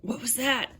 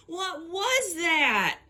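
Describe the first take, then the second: First: Said in the usual way. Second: High, drawn-out fake Southern drawl; bad Southern accent, high and falling slowly at the end; terrible Southern accent. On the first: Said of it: "clearly saying". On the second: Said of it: "[name] has a terrible Southern accent".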